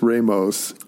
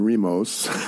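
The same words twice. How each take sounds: First: The name is pronounced the English way. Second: The name is pronounced the Spanish way. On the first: "and not as" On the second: "I went with the Spanish pronunciation"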